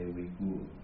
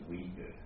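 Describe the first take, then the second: First: The name is said the way a German speaker says it. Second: The name is said the way an American speaker says it. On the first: "I have a German friend. He say Uyghur" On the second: "I also have American friend. They pronounce Uyghur"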